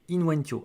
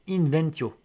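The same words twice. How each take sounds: First: The word has a Latin-style pronunciation. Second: The word has a French-style pronunciation.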